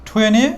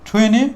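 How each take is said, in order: The two takes are said the same way.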